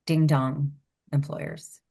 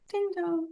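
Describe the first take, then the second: First: Said in the usual way. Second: A higher, softer sing-song ding dong; light mocking doorbell Ding dong. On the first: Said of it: "we should do, like, um". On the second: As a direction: say Ding dong like teasing a fool, up high and soft. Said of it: "We're like".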